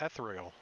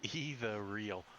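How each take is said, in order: First: The word is said as the single word 'ethereal'. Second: The word sounds like the two words 'either real'. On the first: The speaker calls it right. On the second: The speaker calls it wrong.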